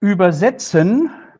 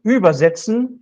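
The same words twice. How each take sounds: First: ÜberSETzen, slow, with SETZ stressed; stress on later syllable. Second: ÜBersetzen, ÜB punched high at the front; first-syllable stress. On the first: Lecturer showing German 'translate', stress on überSETzen. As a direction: land the weight on SETZ in "Übersetzen". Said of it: "the second syllable". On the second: Lecturer showing German 'carry over', stress on ÜBersetzen. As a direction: put the weight on the ÜB of "übersetzen". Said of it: "if I stress the first syllable". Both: Shown as a demonstration.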